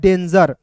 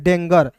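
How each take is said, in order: First: The middle consonant is a j sound. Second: The middle consonant is a hard g sound. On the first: The speaker calls it right. "लेकिन दोस्तों ये लिखा हुआ है डेंजर" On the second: The speaker calls it wrong. "बहुत लोग जो है बिगिनर होते हैं इसे पढ़ लेते हैं डेंगर"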